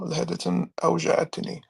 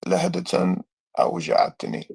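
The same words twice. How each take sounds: First: لَحَدَةً أَوْجَعَتْنِي read fast and higher again; quick, higher Arabic reading of لَحَدَةً أَوْجَعَتْنِي; reading Arabic aloud. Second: لَحَدَةً أَوْجَعَتْنِي read fast and a bit higher; reading Arabic aloud. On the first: Streamer rereads the hadith line to prove his translation, fast Arabic. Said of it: "That's literally what it means". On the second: Streamer reads the hadith line to the chat, fast Arabic reading. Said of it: "So basically it says". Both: Shown as a demonstration.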